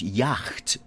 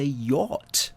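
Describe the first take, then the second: First: "yacht" said as "yackt", with a hard k sound; "yacht" read the way it looks, "yackt"; yacht said as spelt. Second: "yacht" said the usual way, "yot", with no k; "yacht" as it is normally said, "yot". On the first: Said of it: "actually sounds yacht". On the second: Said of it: "but we say yacht". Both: Shown as a demonstration.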